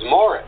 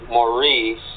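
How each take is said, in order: First: The name is said the British way. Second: The name is said the non-British way.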